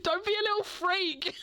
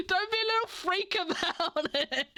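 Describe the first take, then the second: First: Giggling through the words, pitched up; giggly mock jab; laughing mock quote. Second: Higher, giggling repeat of the jab; giggly mock jab again; laughing repeat. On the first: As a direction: laugh it out as a teasing friend. Imagined friends' mocking remark. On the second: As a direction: tease it through a laugh. Repeat of imagined mocking remark.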